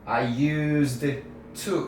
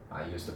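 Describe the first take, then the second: First: The words are cut apart separately. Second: The words are run smoothly together. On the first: The speaker calls it wrong. "끊어가지고 I used I used to 이렇게 따로" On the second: The speaker calls it right. "그냥 연결해서"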